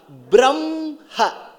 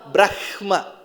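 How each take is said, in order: First: The h sound comes after the m sound. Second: The h sound comes before the m sound. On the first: The speaker calls it right. "So that ha sound comes next, ma sound comes before" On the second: The speaker calls it wrong. "how should you pronounce in the order of writing? ... because ha comes before ma"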